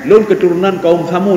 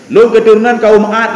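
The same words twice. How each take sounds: First: Lightly voiced boastful claimant; a liar claiming proud ancestry, slightly put on; mock boast. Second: Louder, slower boasting claim; louder mock boast. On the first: Preacher mimics a false claimant to the congregation, mild mock boast. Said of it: "yang bohong dia". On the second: Preacher mocks a liar claiming descent, louder and slower. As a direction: puff it up loudly like a braggart. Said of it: "Bohong dia".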